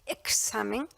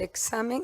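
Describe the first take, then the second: First: The x sound is fully pronounced, with effort. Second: The x sound is reduced, not fully pronounced. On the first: This takes deliberate effort. "tengo que esforzarme y decir examen" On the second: This is how it used to be said. "Yo antes decía el examen"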